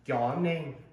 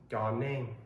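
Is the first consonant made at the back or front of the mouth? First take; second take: back; front. First: The first consonant is made further back. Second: The first consonant is made at the front. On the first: The speaker calls it wrong. "they'll say yaw name, and it just doesn't sound right" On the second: The speaker calls it right. "It's pronounced more forward in your mouth"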